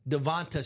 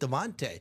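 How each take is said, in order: First: The name ends with a 'tah' sound. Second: The name ends with a 'tay' sound. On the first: This is how announcers say it, following the spelling. The speaker calls it wrong. "I still hear announcers saying Devonta Smith" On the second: This is how the player himself says it. The speaker calls it right. "he's pronounced it Devontae"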